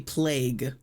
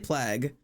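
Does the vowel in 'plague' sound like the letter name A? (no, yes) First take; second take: yes; no. First: The vowel is the letter-name A sound. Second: The vowel is not the letter-name A sound. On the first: The speaker calls it right. "it's supposed to be plague, I think. I'm supposed to say the A" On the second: The speaker calls it wrong. "I say it wrong. I say plague"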